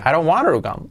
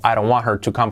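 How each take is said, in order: First: The t is softened, barely a tap. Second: The t is clearly pronounced. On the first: "con la H omitida y la T como resuave" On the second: "con la T también"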